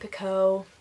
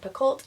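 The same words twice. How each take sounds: First: The name ends without L and T sounds. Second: The name ends with audible L and T sounds. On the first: "most people were not pronouncing the L T at the end" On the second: "I said Picoult in a previous video"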